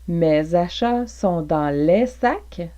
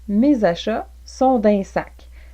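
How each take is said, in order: First: Both words 'dans les' are pronounced in full. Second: 'Dans les' is shortened into one reduced syllable.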